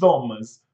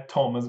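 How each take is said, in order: First: It begins with another th sound, not t. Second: It begins with a plain t sound. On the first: The speaker calls it wrong. "nem Thomas" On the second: The speaker calls it right. "É Thomas mesmo, som de T"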